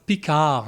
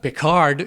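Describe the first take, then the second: First: The final D is silent. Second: The final D is pronounced. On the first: The speaker calls it right. "You don't pronounce the D at the end. It's a French word" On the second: The speaker calls it wrong. "not Picard"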